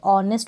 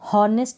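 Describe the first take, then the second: First: The word begins directly with a vowel. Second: The word begins with an H sound. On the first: The speaker calls it right. "ऑनेस्ट बोलते हैं, एच यहाँ पर भी silent है" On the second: The speaker calls it wrong. "इसको भी हॉनेस्ट नहीं बोलते"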